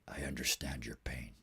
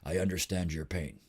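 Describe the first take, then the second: First: It is said in a quiet, hushed voice. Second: It is said at a normal speaking volume.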